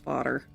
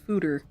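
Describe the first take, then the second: First: The first vowel sounds like the one in odd. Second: The first vowel sounds like the one in food. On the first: The speaker calls it right. "the correct way to say it is fodder" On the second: The speaker calls it wrong. "I used to call these things fooder"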